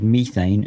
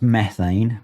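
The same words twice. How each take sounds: First: It is said with a British pronunciation. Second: It is said with an American pronunciation. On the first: The speaker calls it right. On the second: The speaker calls it wrong.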